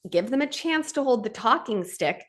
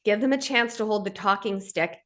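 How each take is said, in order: First: Higher, with weight on "chance"; stress on chance. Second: Said in the usual way. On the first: Shown as a demonstration. Host repeats the line to listeners, stressing "chance".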